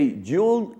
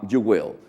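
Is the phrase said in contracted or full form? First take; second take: contracted; full. First: It is said as one contracted syllable. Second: It is said as two full separate words. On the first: "If you say you'll" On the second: "is the same to say uh, you will"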